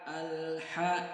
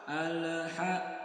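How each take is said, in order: First: The L is held without any release bounce. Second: The L is released with an audible bounce. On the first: The speaker calls it right. "maka jangan sampai dilepas" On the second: The speaker calls it wrong. "Kalau kita lepas, ... maka akan terdengar pantulan"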